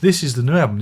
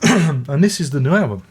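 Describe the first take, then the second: First: "This" punched up front; retake. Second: "album" falling at the end; first take. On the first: Holding the record up again, stress on "This". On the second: Presenting "album" to camera with a falling close. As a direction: stress on album. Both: Shown as a demonstration. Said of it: "He says, reaching for it, and hold it up again".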